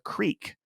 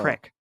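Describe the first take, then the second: First: The vowel is a long ee sound. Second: The vowel is a short i sound. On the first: This is the standard way most people say it. "people don't say creek here" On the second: This is how locals around here say it. "they say crick"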